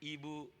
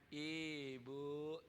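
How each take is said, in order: First: The word is said plainly and evenly. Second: The word is said in a whiny way. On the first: The speaker calls it right. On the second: The speaker calls it wrong.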